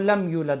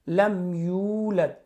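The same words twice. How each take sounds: First: The vowel in "yu" is clipped short. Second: The vowel in "yu" is drawn out long. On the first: The speaker calls it wrong. "अब अगर उसने लंबा नहीं किया, यूलद जल्दी से पढ़ा" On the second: The speaker calls it right. "यू थोड़ा सा उसको लंबा करना होता है"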